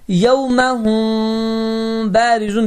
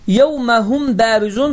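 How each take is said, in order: First: The m is hidden in the b, nasalized. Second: The m is pronounced openly and clearly. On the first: The speaker calls it right. "mim harfi B harfinin içinde gizlenmiştir" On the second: The speaker calls it wrong. "açıq və aşkar bir şekilde yevmehum barizun söylemedim"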